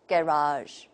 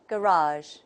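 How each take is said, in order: First: It is said in a British accent. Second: It is said in an American accent. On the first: "the British model" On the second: "according to the American model"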